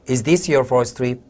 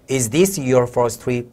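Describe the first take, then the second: First: It is said at normal speed. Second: It is said slowly.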